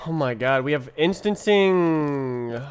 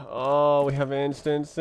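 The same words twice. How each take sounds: First: Loud, slow, amazed; excited. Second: Said in the usual way. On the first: Real, not acted. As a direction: savor the discovery, drawn out. Excited discovery of a feature.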